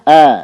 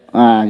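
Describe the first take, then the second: First: The vowel is released freely and openly. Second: The vowel is strained like someone retching. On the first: The speaker calls it right. "Suaranya dilepasin ya" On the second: The speaker calls it wrong. "jangan juga seperti orang muntah. Gimana orang muntah?"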